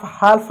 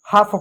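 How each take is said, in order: First: हाल्फ with the l sounded, "haalf"; wrong pronunciation. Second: हाफ said as "haaf", l silent; correct pronunciation. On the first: Teacher shows students the wrong हाल्फ with a spoken l. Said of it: "हाल्फ नहीं पढ़ते हैं". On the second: Teacher gives students the right form: हाफ without the l. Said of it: "हाफ पढ़ते हैं". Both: Shown as a demonstration.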